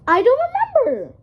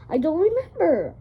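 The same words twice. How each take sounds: First: It is said in an amazed tone. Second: It is said in a plain, unamazed tone.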